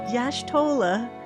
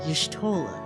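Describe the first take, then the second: First: The first part of the name is drawn out. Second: The first part of the name is said quickly. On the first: The speaker calls it wrong. "it's not Yashtola" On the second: The speaker calls it right. "You say it quickly"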